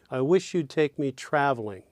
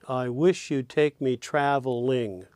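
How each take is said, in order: First: The last syllable of traveling is weak. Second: The last syllable of traveling is stressed. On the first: The speaker calls it right. "the ling of traveling is weak" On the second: The speaker calls it wrong. "Yeah, no, not so much"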